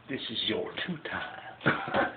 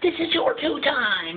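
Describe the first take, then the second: First: Muttered rehearsal. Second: High, loud laughing delivery; punchline high and loud. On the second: Host delivering the punchline high and laughing. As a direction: belt out the punchline. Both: Shown as a demonstration.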